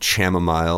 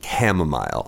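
First: The word begins with a non-K sound. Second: The word begins with a hard K sound. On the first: The speaker calls it wrong. "It's not going to be" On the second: The speaker calls it right. "the CH is pronounced with a hard K"

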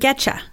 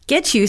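First: The t and you merge into a 'cha' sound. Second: The words are pronounced separately and fully.

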